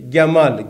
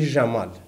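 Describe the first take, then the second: First: Egyptian accent: it starts with a hard G sound. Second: Lebanese accent: it starts with a soft J sound.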